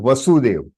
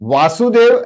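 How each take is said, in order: First: The first vowel is short 'va'. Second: The first vowel is long 'vaa'. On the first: It names Krishna's father. "वा और व" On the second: It names Krishna. "वा और व"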